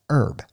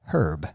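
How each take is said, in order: First: The word begins with a vowel, no h. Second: The word begins with an audible h sound. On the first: "in the United States... usually pronounced herb, E-R-B" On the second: "I've watched a lot of British gardening shows... they say herb"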